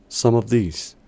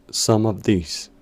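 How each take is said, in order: No difference in how they are said.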